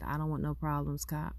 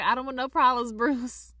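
First: Said in the usual way. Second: Higher, louder corrected take; raised-voice retake. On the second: Retold or imitated. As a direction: redo the line pitched well up and louder. Redoes the line with fake name.

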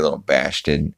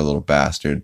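First: Slurred, softer cartoon put-down; lightly voiced skeleton. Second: Said in the usual way. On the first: Skeleton chasing off a girl, lightly voiced jeer. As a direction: lightly slur it as a character's jeer. Skeleton's line, then repeated plainly.

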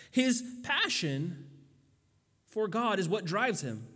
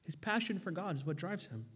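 First: Slow, deliberate stress on passion; emphatic preaching. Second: Repeated softly, much quieter; soft echo. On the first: Preacher to congregation, slow emphatic stress. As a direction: linger on His passion, let it land. Preacher repeats key line. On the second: Preacher repeating his point to the congregation, quietly. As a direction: let it fall to a hush. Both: Acted.

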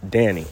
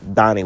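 First: "Danny" with the flat A of "cat", drawn out; Danny with short A. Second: "Danny" pronounced like "Donny". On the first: Correcting Annie on the name, "Danny" said with a long cat-vowel A. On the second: Correcting Annie on the name, "Danny" said as "Donny". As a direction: open the first vowel of "Danny" to "ah", as in "Donny". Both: Shown as a demonstration. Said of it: "Danny with a O".

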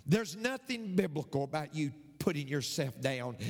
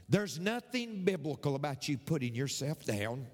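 Both takes have the same delivery.

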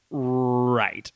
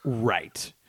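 First: Long rolled-out start on "Right"; drawn-out "Right". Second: Said in the usual way. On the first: Real, not acted. Co-host finally understanding the explanation, drawn-out "Right". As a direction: stretch the opening of "Right" as it dawns. Repeated as the point sinks in.

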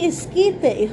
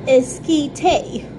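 First: Esquite said es-KEE-teh, in Spanish; slow and clear, esquite with Spanish vowels. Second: Esquite in a typical American accent, ess-KEE-tay. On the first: To viewers, naming the dish properly: Spanish esquite. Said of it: "then just say esquite". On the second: To viewers, how Americans would say it: American-accent esquite. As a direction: say esquite with American English vowels. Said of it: "the way we would say it in our typical American accent". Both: Shown as a demonstration.

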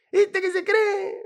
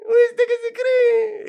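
First: High, slow gocho drawl; gocho accent. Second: Even higher, louder, slower gocho ¿Viste que se cree?; louder gocho accent. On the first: Gocho greeting a friend abroad, slow high gocho accent. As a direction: stretch ¿Viste que se cree? in gocho accent. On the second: Gocho greeting a friend abroad, loud high gocho accent. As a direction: push the gocho line bigger. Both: Retold or imitated. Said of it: "vamos a hablar gocho".

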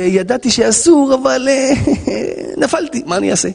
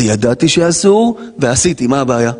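First: Faltering excuse with a breathy laugh; sheepish confession. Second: Brazen admission. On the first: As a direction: admit it haltingly, then give in helplessly. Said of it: "עוון". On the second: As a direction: own up as if it were nothing. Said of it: "פשע". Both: Acted.

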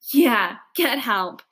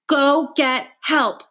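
First: Slow, scornful echo; snorting mockery. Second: Slow, sharp barked command; barked order. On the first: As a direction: snort it back mockingly. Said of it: "snorts Bear". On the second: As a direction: bark the order at her. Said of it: "I bark at her". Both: A narrator's reading.

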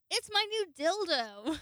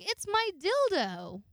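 First: High, loud, slow triumphant reveal; proud reveal. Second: High, loud and slow, proud reveal; bold announcement. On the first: Showing the new dildo to Alexis, loud and triumphant. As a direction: present it like a trophy. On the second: Showing her new dildo to the roommate, loud and proud. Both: Retold or imitated.

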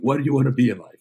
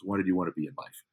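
First: Higher and louder, demanding the answer; menacing shout. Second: Said in the usual way. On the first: Retold or imitated. Tyler Durden threatening the store clerk, mock menacing shout. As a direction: bark it like a gun is at his head.

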